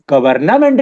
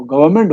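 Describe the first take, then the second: First: गवर्नमेंट with the N sounded: ga-var-NA-ment; over-pronounce गवर्नमेंट in four syllables, ga-var-na-ment; mistaken pronunciation. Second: गवर्नमेंट with the N dropped: ga-va-ment; silent N. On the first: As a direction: say every letter of गवर्नमेंट, adding a "na" before "ment". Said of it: "गवर्नमेंट नहीं होता". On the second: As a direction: glide through गवर्नमेंट as "gavament", no middle N. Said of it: "गवर्नमेंट में एन silent होता है". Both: Shown as a demonstration.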